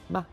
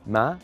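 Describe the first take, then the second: First: The syllable is short, light and unstressed. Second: The pitch rises from low to high.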